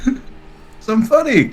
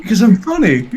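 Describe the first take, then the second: First: Slow, higher, laughing delivery; milk the joke, stretching it out; drawn-out comeback. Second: Higher, through a laugh; quick comeback with a laugh in it; amused comeback. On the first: Guest repeats his joke to the host, drawn out. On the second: Guest answers why he keeps being invited, amused. Joking answer to host's jab. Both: Real, not acted.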